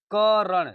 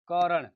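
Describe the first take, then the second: First: करण with क punched high and loud; teacher stressing the first syllable of करण. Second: Said in the usual way. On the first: Shown as a demonstration. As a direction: hit the क of करण. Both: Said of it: "इसे बल किस पे दिया जा रहा है".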